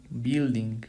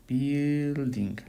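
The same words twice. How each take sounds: First: Said in the usual way. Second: "Building" stretched out, first syllable held long; drawn-out word. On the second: Shown as a demonstration. Teacher fixing a missing U, "Building" slowly drawn out. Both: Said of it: "aquí me faltó la U".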